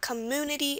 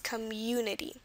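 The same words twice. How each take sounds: First: The 'u' vowel has no 'y' sound before it. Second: The 'u' vowel has a 'y' sound before it. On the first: The speaker calls it wrong. "It's not community" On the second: The speaker calls it right. "You have that Y in there before"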